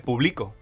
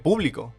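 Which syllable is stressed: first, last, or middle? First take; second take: middle; first. First: The stress is on the middle syllable. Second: The stress is on the first syllable. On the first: I publish now. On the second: It names the audience.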